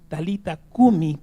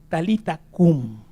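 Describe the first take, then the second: First: The last word ends with a vowel sound. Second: The last word ends with a consonant sound. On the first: "en griego, se pronuncia así" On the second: "en hebreo es"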